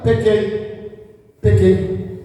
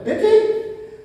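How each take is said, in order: First: Private confession. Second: High, rising questioning admission; challenging confession. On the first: Saul confessing in the prophet's ear, grudgingly. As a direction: confess curtly, as if for one ear. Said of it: "Aí ele confessa no ouvido do profeta". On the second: Saul asking the prophet if this satisfies him, challengingly. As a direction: toss it up like an insincere question. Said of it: "é isso que tu quer ouvir". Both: Acted.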